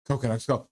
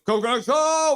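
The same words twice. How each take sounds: First: Said in the usual way. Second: Much higher and louder shouted cheer. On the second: Acted. Fan cheers the team on, shouting the chant. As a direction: yell it out like the crowd.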